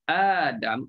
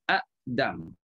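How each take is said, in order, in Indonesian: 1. Vokal pertama panjang, tidak ada hentian glotis. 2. Hentian glotis menutup suku kata pertama.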